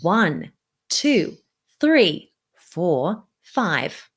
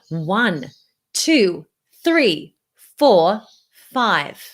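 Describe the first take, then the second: First: The counting is spoken at a medium volume. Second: The counting is spoken at a fairly loud volume. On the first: "Now I'm going to lower the volume again" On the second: "now I'm going to lower the volume only"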